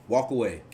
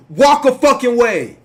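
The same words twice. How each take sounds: First: Said in the usual way. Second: Loud, higher, slow insistence; emphatic shout. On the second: Real, not acted. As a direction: spell it out hard and slow.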